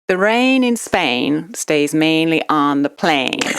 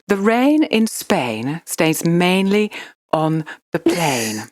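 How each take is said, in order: First: It is said in an imitated American accent. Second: It is said in a posh Queen's English accent. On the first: "now in American" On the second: "do it in a Queen's English"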